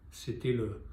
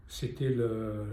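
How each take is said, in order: Both takes have the same delivery.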